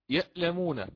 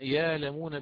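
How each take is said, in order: First: A glottal stop closes the first syllable. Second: The first syllable has a long a vowel. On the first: "هي أصلها همز ساكن" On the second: "فقرأنا يالمون بالإبدال"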